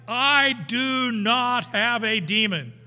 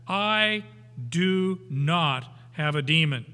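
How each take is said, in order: First: Slow, loud and higher, every word stressed in "I do not have a demon"; solemn emphatic denial. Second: Firm stress on "I do not have a demon"; emphatic. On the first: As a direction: hammer "I" then "do not have a demon" slowly. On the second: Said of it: "this is emphatic". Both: Shown as a demonstration.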